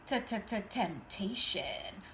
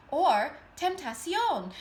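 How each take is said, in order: First: T-t-t-temptation, the T stuttered three times and the word drawn out very slowly; stuttered build-up. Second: Tentacion in a deliberately bad Spanish accent, a little higher and louder. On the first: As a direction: stammer the T of t-t-t-temptation, then stretch the rest slowly. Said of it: "she's coming through as the T word". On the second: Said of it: "in the worst Spanish accent ever". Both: Shown as a demonstration.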